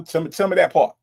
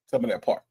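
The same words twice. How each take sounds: First: Louder, higher hype on that; hyped. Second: Whispered echo. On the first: Hyping up a chatter's flames, loud and eager. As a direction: cheer the chatter on. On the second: Echoing the hype line to chat as a whisper. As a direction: repeat it under the breath. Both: Real, not acted.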